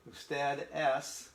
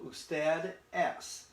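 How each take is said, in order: First: Usted es very slowly, es stretched; slow model phrase. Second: Usted es very slowly, each syllable apart; slow model phrase. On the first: Teacher repeating usted es slowly for learners. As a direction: lay it out patiently. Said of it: "in English it means you are". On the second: Teacher drawing out usted es for students. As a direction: stretch it for the learners. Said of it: "it's a formal you". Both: Shown as a demonstration.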